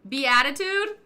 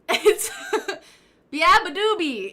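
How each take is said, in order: First: The name is said like the word beatitude. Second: The name is said as bee-uh-buh-doobie. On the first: The speaker calls it wrong. "No, that's not it" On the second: The speaker calls it right.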